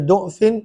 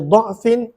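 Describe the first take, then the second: First: The first vowel is a 'u' sound. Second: The first vowel is an 'a' sound. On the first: "dot berbaris depan" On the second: "dot berbaris atas"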